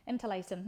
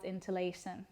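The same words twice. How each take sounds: First: Interlacing with a slight Irish lilt, the c softened to "sh"; accidental Irish lilt. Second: Said in the usual way. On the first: Real, not acted. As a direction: let Interlacing slip into a light Irish accent. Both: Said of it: "I sounded Irish saying that".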